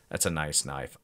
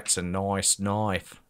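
First: Said in the usual way. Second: Mock Australian accent. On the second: Slides into Australian film quote.

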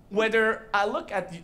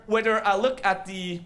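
Both takes have the same delivery.

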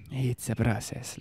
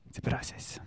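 First: Breathy half-whisper, drawn out; slow self-soothing. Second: Soft whispered self-reassurance; hushed, barely voiced; calming whisper. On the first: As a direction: stretch it slowly to calm yourself. Repeats it slowly, calming down. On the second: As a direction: whisper it to settle yourself. Self-soothing after getting worked up. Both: Real, not acted.

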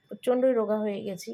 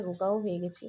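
First: প্রচণ্ডই said louder and leaned on; stress on প্রচণ্ডই. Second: Said in the usual way. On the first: Real, not acted. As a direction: punch the word প্রচণ্ডই.

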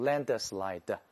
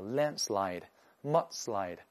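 First: "landslide" read the wrong way, slow; the mistaken "landslide" the teacher warns against. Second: "landslide" and "mudslide" said correctly, slow and clear; the correct "landslide" after the wrong one; right reading. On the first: Teacher shows students a wrong reading of "landslide", slow. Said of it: "不要读". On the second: Teacher gives students the correct reading of "landslide", slow. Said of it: "叫". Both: Shown as a demonstration.

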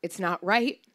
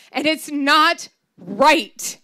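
First: Calm, even it's not right, softer; grandma calmly stating it's not right; matter-of-fact. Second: Higher, louder, slow wail on it's not right; hurt granddaughter wailing and it's not right. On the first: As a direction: state it's not right plainly, no drama. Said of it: "she said matter-of-factly". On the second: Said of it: "I wailed". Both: Retold or imitated.

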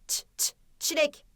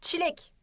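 First: Short repeated "ç", then whole "çilek"; isolated first sound. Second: Said in the usual way. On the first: Shown as a demonstration. Teacher testing the first sound, isolated "ç" before "çilek". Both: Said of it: "O sesiyle başladı mı".

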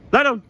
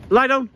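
The two takes are said the same way.

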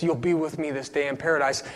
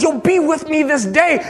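First: Very soft, low promise; hushed assurance. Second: High-pitched, ringing promise; fervent proclamation. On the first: Torn Jesus assuring the thief beside him, hushed. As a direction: drop right down to a near-murmur. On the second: Preacher retelling Jesus' promise to his dad, fervent. Same promise, retold with rising fervour. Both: Retold or imitated.

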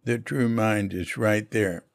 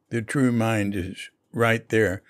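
The two takes are said the same way.

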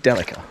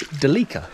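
First: "Delica" as DEL-i-ca, short e and stress first; correct pronunciation. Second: "Delica" as de-LEE-ka, stress in the middle; Australian mispronunciation. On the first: Driver showing the proper car name, "Delica" as DEL-i-ca. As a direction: say "Delica" as DELL-uh-kuh. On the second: Driver showing how Australians say it, "Delica" as de-LEE-ka. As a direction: say "Delica" as duh-LEE-kuh, long ee. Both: Shown as a demonstration. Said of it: "Australianisms that we mispronounce".

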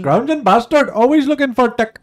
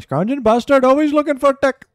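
First: Put-on much higher, much louder Indian Scottish accent yell. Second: Put-on much higher, much louder Indian Scottish accent rant. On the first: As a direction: shout it as the Indian Scottish shopkeeper from Still Game. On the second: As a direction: bellow it like the Indian Scottish guy in Still Game. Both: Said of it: "He's like an Indian Scottish guy".

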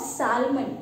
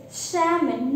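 First: "salmon" with the L sounded; wrong "salmon", L pronounced; mispronounced salmon. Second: "shaman" with no L, stressed firmly; salmon as "shaman", L dropped; silent L in salmon. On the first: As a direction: say "salmon" with an audible L before M. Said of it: "not salmon". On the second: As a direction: say "shaman", vowel straight into M. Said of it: "Though we pronounce it". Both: Shown as a demonstration.

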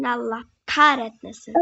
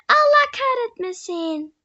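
First: Said in the usual way. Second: High, slow, drawn-out cursing; dramatic curse. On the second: Real, not acted. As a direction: stretch out the curse in mock despair. Repeated curse after falling.

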